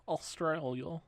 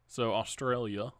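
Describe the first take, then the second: First: A weak stab at an Australian accent on Australia, rising at the end; failed Australian accent. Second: Said in the usual way. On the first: Shown as a demonstration. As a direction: try an Australian accent and miss. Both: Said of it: "That was not an Australian accent".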